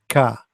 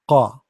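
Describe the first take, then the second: First: The consonant is an ordinary front k sound. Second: The consonant is made deep in the throat. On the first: The speaker calls it wrong. "not ka" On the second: The speaker calls it right. "This is a qa, the same as a chicken when it's make a sound"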